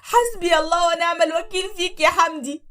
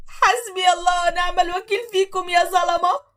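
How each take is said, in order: First: Loud, high sobbing curse; crying curse. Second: High, slow wailing curse; slow crying curse. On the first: Wife crying her curse at Hamdi. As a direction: cry it at Hamdi. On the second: Wife wailing her curse at the oppressors. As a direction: wail it at them. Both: Acted.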